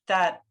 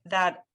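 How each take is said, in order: Both takes have the same delivery.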